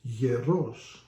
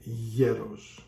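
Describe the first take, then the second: First: Hieros with the last syllable stressed, slowly. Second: Hieros stressed on the first syllable; weight on the E in hieros, not the O. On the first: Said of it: "if you put it on the O". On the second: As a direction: say hieros as YE-ros. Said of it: "on the O instead of the E". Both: Shown as a demonstration.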